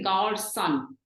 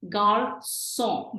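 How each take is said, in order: First: The word ends with a fully pronounced N sound. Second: The word ends in a slight nasal vowel sound. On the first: The speaker calls it wrong. "We don't want to say gar son" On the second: The speaker calls it right. "We want to say a slight sound, ... between O and N"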